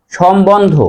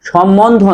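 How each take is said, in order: First: সম্বন্ধ said shombondho, clear b; correct pronunciation. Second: সম্বন্ধ said shommondho, without b; rejected pronunciation. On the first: Teacher repeats correct form for students, b pronounced. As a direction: sound the b after m in সম্বন্ধ. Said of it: "সঠিক উচ্চারণ হবে". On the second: Teacher rules out the wrong form, mispronounced. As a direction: double the m in সম্বন্ধ, no b. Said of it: "নয়". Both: Shown as a demonstration.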